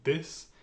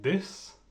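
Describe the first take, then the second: First: It begins with a d sound. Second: It begins with a d sound.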